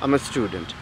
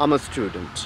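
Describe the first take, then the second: First: "I am" is shortened into one syllable. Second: The same.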